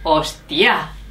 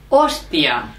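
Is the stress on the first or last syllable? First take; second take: last; first. First: The stress is on the last syllable. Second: The stress is on the first syllable.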